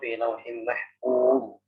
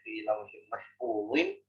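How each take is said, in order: First: The last word ends on a bare z. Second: The last word ends with a -zin sound. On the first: The final letter is made silent-voweled at the stop. The speaker calls it right. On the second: The nunation is kept at the stop. The speaker calls it wrong.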